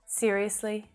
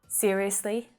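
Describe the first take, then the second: No difference in how they are said.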